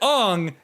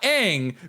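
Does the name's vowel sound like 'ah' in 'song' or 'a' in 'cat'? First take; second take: song; cat. First: The vowel sounds like the 'o' in 'song'. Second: The vowel sounds like the 'a' in 'cat'. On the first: It is the name as used in the live-action film. "I said Ong" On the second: It is the name as used in the animated series. "not Aang, because Aang is from Avatar"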